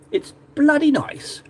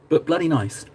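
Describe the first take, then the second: First: Hammed-up British accent, slow and high. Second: Said in the usual way. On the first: Shown as a demonstration. Repeating the phrase to viewers in an exaggerated British accent. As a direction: stretch it out in mock-British delight, high-pitched. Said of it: "That's a very British way of saying it".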